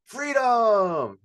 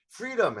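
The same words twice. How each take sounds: First: Loud, high, drawn-out shout; huge crowd cheer, stretched and falling; full-energy rallying cry. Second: Restrained crowd cheer, short and falling; first rallying try. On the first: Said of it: "I didn't feel the energy". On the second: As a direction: call the word high without full force. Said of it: "Oh, they're not excited". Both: Shown as a demonstration.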